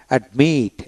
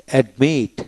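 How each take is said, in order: Both takes have the same delivery.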